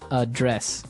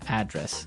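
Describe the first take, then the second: First: The stress is on the second syllable. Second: The stress is on the first syllable.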